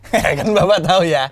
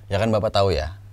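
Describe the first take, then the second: First: It is said with giggling laughter. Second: It is said flatly, without laughter. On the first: "kalau pakai giggling" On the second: "kalau gua nggak pakai smiley voice"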